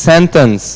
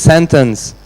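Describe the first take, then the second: Both takes have the same delivery.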